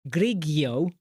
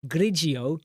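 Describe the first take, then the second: First: "Grigio" as GRIG-ee-oh; a hard G in the middle of "Grigio". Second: "Grigio" as GRIJ-ee-oh; a J sound in the middle of "Grigio"; soft-G Grigio. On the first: Streamer trying "Grigio" as GRIG-ee-oh, hard G. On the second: Streamer trying "Grigio" as GRIJ-ee-oh, soft G. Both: Shown as a demonstration. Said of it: "How do you pronounce it?".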